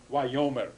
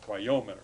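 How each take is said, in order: First: "wayomer" with the accent on the first syllable, falling; Hebrew word demo. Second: "wayomer" again, first syllable stressed, lower and falling; Hebrew word repeated. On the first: Teacher pronounces "wayomer" for the class. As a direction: stress "way" in "wayomer", then let it fall. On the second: Teacher repeats "wayomer" for the class. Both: Shown as a demonstration. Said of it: "the accent on the first syllable".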